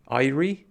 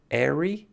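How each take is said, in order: First: "Airy" said as EYE-ree with a rising question; "Airy" spoken EYE-ree, unsure. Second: "Airy" said as AIR-ee with a rising question; "Airy" spoken AIR-ee, unsure. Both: Shown as a demonstration. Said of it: "don't know how to say this word".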